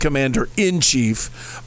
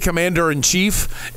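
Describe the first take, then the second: First: The word 'in' is pronounced clearly. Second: The word 'in' is slurred into 'and'. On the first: The speaker calls it right. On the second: The speaker calls it wrong.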